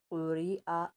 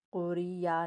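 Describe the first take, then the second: First: कुरिआ read with no y sound, hamza carrying a; correct reading. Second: कुरिया said with a clear y sound, marked as wrong; wrong reading. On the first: Teacher giving the correct recitation, careful. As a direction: say कुरिआ with a clean glottal break, no ya. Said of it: "यहाँ पर या नहीं पढ़ेंगे". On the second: Teacher demonstrating the wrong way, quick. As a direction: say कुरिया with a ya glide, the mistake to avoid. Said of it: "कुरिया नहीं पढ़ेंगे". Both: Shown as a demonstration.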